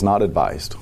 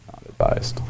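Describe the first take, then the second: First: Said in the usual way. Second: Quiet, low aside repeating the verdict; hushed echo. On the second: Real, not acted. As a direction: drop low and nearly whisper it.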